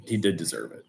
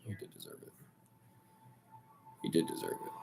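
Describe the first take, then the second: First: Said in the usual way. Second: Voiceless whisper, almost to himself; grudging whisper. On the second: Real, not acted. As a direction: breathe it out like you hate admitting it. Grudging admission repeated under breath.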